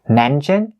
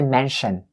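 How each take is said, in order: First: The middle consonant is a ch sound. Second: The middle consonant is an sh sound. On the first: The speaker calls it right. "the C H sound" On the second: The speaker calls it wrong. "So not mm. the sh sound. Don't say mention"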